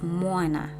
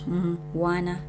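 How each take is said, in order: First: The m is joined to the following syllable. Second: The m is said as a separate syllable. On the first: The speaker calls it right. "m is not a syllable alone" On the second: The speaker calls it wrong. "it's not mwana"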